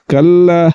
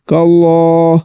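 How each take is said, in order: First: The L sound is light and thin. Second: The L sound is heavy and thick. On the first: The speaker calls it wrong. "یہ بریک ہے" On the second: The speaker calls it right. "لام کو پر یعنی کہ موٹا کر کے پڑھیں گے"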